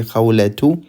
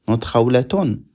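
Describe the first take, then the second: First: Khawlatu with a plain u ending and no final n; correct form. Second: Khawlatun with an extra n on the end, shown as the mistake; wrong form. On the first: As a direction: say khawlatu and stop cleanly on the u. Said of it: "We say khawlatu". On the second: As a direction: tack the n onto khawlatun to show the error. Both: Shown as a demonstration.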